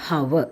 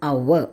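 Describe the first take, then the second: First: "hover" with the H sounded; wrong pronunciation. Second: "Our" with silent H, loud and low; correct pronunciation. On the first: Teacher shows students the mistake, "hover" with a sounded H. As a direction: say "hover" with a breathed h at the front. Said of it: "right pronunciation". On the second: Teacher models the word for students, "Our" starting on the vowel. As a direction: open "Our" straight on the vowel, no h. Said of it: "What's the right pronunciation?". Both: Shown as a demonstration.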